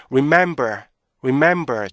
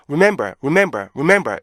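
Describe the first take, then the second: First: "remember" with a roomy middle beat; correct REMEMBER rhythm. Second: "remember" run together quickly, no middle beat; rushed learner REMEMBER. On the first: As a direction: linger on "mem" in "remember", then fall. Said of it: "중간에 약간 여유가 있어요". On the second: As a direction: mimic learners' hurried "remember". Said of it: "이렇게 읽잖아요". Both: Shown as a demonstration.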